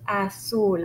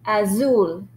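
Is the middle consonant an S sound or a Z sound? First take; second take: S sound; Z sound. First: The middle consonant is a hissing S sound. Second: The middle consonant is a buzzing Z sound. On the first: The speaker calls it right. "So the sound is S even for the letter Z. But we pronounce it in Spanish azul" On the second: The speaker calls it wrong. "many people think because it's a Z, they will pronounce it as azul"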